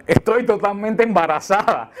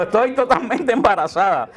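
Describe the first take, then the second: First: Drawn-out "Estoy totalmente embarazada", stretched slowly; slow announcing. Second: "Estoy totalmente embarazada" slow, high, through a laugh; laughing while quoting. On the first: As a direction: spell it out slowly for grandma. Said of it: "le dice a la abuela". (anuncio lento y estirado) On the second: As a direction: quote the grandma while cracking up. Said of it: "vieja empezó a dar gritos cuando dijo". (citando entre risas, lento y agudo) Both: Retold or imitated.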